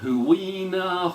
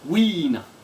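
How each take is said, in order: First: The name starts with a separate hoo sound. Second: The name starts with a breathy w sound. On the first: The speaker calls it wrong. "Everyone's gone Huina" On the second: The speaker calls it right. "Huina is actually pronounced Weena"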